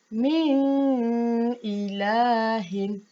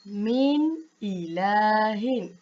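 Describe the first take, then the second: First: The n is held with a nasal hum. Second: The n is said clearly without a nasal hum. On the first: The speaker calls it wrong. "itu bacaan yang salah kerana kita dengungkan dia" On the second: The speaker calls it right. "itu bacaan yang betul. Min ilahin. Tanpa perlu dengung"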